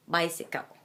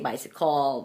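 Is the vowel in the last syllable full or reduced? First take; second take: reduced; full. First: The last syllable has a reduced schwa vowel. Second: The last syllable has a full vowel. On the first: The speaker calls it right. "It is a schwa" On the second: The speaker calls it wrong. "you don't say"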